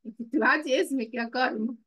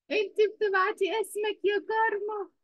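First: Said in the usual way. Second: Much higher pitch, stressing كارما; raised, exasperated repeat. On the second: Real, not acted. Teacher repeating herself to Karma, higher and exasperated. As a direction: call her out again, pitched high. Teacher correcting a pupil twice.

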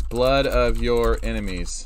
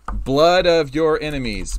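First: Said in the usual way. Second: Loud, slow epic title read; booming dramatic. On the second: Shown as a demonstration. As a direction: boom it out like a movie title. Reads name twice, first booming.

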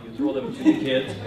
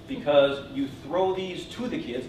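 First: "to" punched high and loud; stress on TO. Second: Said in the usual way. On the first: Real, not acted. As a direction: hit the word "to" hard, up high. Repeats with stress against "not at them.

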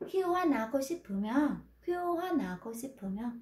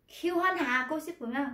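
First: Khiêu hoa nào with nào glided in lightly, no H; light native linking. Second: Khiêu hoa hà with a heavy, separate hà; heavy learner h. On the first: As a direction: skim lightly over the nào. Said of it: "Người ta liếng qua rất là nhẹ nhàng". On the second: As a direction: press down hard on the hà. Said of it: "Nó cứ ha nó rất là nặng". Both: Shown as a demonstration.

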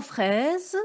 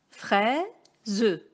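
First: Said in the usual way. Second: "Fraise" split as frai, ze, the final e sounded; syllable by syllable. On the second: Shown as a demonstration. Teacher showing pupils the two syllables, syllable by syllable. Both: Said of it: "nous avons deux syllabes".

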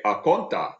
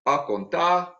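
First: "A conta" said high with a level tone; Twi tone contrast. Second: "A contar" with a high, rising tone; Twi tone demo. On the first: Lecturer contrasts Twi tones for students. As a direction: give "A conta" a different tone from "A contar". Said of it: "But if I say". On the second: Lecturer shows students a Twi tone pattern. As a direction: sing "A contar" up on the second syllable. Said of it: "So if I say". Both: Shown as a demonstration.

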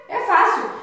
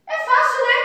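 First: Said in the usual way. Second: É fácil, lifted high and bright; cheery encouragement. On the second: Acted. Teacher cheering pupils that the task is easy, cheerful. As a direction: sing it up to make the task sound easy.

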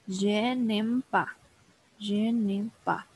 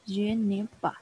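First: "Je n'aime pas" slow, weight on "n'aime", falling end; slow repeat drill for a learner. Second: Said in the usual way. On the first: Shown as a demonstration. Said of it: "teacher drills phrase slowly". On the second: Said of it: "teacher repeats at normal pace".

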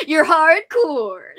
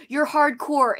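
First: Loud, drawn-out teasing cheer; teasing emphasis. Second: Said in the usual way. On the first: Real, not acted. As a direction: stretch it out loud and higher. Teasing repeat, hammed up.

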